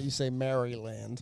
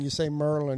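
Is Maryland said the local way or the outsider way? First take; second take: outsider; local. First: It is said the non-local, outsider way. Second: It is said the local Marylander way.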